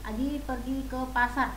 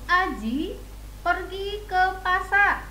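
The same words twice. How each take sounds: First: The pitch stays flat across the sentence. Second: The pitch rises and falls across the sentence. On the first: The speaker calls it wrong. "tidak begitu ya" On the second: The speaker calls it right. "itu menggunakan intonasi"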